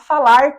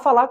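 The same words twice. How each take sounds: First: The final R sound is clearly pronounced. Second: The final R sound is dropped. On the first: This form is rarely heard in everyday speech. "Dificilmente nós vemos alguém dizendo" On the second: This is the usual everyday way of speaking. "Nós falamos"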